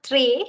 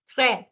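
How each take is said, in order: First: Très said with a rising, wrong vowel; très, the incorrect version; wrong pronunciation. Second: Très with an open French è and a falling tune; correct pronunciation. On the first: Teacher giving the wrong très to the class. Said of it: "it is not très". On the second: Teacher modelling the correct très. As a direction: land très firmly with an open è. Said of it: "it's très". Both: Shown as a demonstration.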